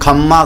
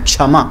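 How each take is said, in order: First: The word begins with a plain kh sound. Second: The word begins with a ksh sound. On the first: This is the regional way of saying it. "जैसे राजस्थान में आप सुनोगे खम्मा घड़ी" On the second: This is the standard form of the word. "हाँ वो क्षा है"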